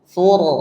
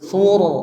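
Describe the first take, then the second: First: The r is thick and heavy, with a dark vowel. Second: The r is thick and heavy, with a dark vowel.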